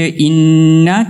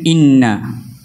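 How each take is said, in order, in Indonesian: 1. Bunyi sengau n dibaca panjang. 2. Bunyi sengau n dibaca pendek.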